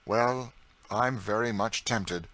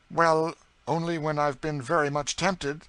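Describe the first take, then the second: First: Slower, lazy gentleman echoing her; St. Clair. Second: Higher, louder prim spinster voice; earnest New England aunt, a little indignant; Miss Ophelia. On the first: St. Clair echoes his cousin's words back, languidly teasing. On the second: Prim Ophelia defends herself to her teasing cousin, earnest. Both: A narrator's reading.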